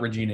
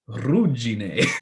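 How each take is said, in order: First: It is said with an anglicized reading. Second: It is said with an Italian pronunciation. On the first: The speaker calls it wrong. "It's not Regine" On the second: The speaker calls it right. "I learned how to pronounce this from a real Italian"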